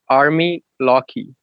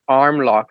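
First: It is said with a thick Portuguese accent. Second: It is said plainly, without a Portuguese accent.

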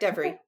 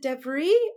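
First: The name has its usual English stress pattern. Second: The name has a French-style stress pattern. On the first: The speaker calls it right. "You even put the emphasis on the right half" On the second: The speaker calls it wrong. "A lot of people try to make me French"

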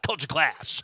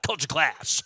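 First: It is said angrily, as if mad. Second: It is said angrily, as if mad.

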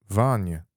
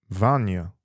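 No difference in how they are said.

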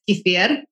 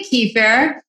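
First: The R sound is rolled. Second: The R sound is not rolled. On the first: "In Russian, it's kefir. So like rolling the R" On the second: "I say kefir"

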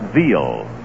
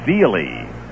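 First: The name is said as one syllable, like 'veal'. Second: The name is said with two syllables, ending in 'ee'. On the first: This is how he gave his name years later. "he pronounced it Veal" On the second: This is how he first gave his name. "said his name was Bob Veely"

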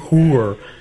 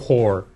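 First: The word is said with a Canadian pronunciation. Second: The word is said with a non-Canadian pronunciation.

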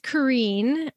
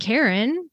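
First: The name is said in an American way. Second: The name sounds like the English name Karen. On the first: This is the form adopted while living abroad. "Or it's Kareen, because I chose that one finally when I went and lived in the States" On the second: This is the closest familiar English name. "I grew up saying Karen because I was French, and the closest English name that I knew is Karen"

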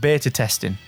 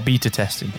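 First: Beta is said with an American pronunciation. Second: Beta is said with a British pronunciation.

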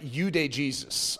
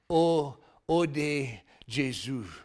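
First: The phrase is read with English pronunciation. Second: The phrase is read with French pronunciation. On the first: "It looks like Eau de Jesus, okay, if you were going to read it in English" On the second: "but Eau de Jesus, okay, does that sound, everyone thinks I'm French now"

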